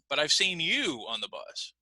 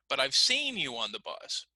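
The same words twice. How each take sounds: First: The word you carries the main stress. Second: The word seen carries the main stress. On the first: It was this person, not someone else. "let's try the word you" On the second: It corrects a claim that it never happened. "if I emphasize the word seen"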